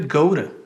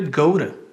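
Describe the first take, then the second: First: The T in 'to' is a quick flap. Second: The T in 'to' is a quick flap.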